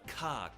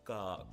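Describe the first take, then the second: First: The consonant explodes with a puff of air. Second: The consonant is soft with no puff. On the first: The speaker calls it wrong. "Instead of ka" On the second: The speaker calls it right. "Keep it unexploded"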